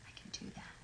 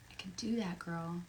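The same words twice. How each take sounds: First: Breathy whisper to herself. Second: Said in the usual way. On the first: Real, not acted. Promising a fan under her breath, whispered. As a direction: mouth it almost silently. Whispers it, then repeats it aloud.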